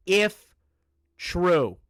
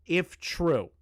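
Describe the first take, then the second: First: "if" set apart and emphasized; stress on IF. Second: Said in the usual way. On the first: Shown as a demonstration. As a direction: hit the word "if" hard, then a separate, loud "true". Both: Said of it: "I need to emphasize the word if".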